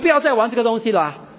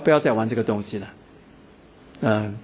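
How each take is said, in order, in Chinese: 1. 这句话用的是最强烈、最有力的语气。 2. 这句话说得比较严厉，语气有所加强。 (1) "这个语气已经最高了" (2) "假如我加强那个语气啦"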